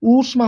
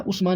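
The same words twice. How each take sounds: First: ऊष्मा with a long ऊ, oosh-ma; ऊष्मा said correctly; correct pronunciation. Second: उष्मा with a short उ, ush-ma; उष्मा the common mistake; wrong pronunciation. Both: Shown as a demonstration. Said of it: "उष्मा नहीं".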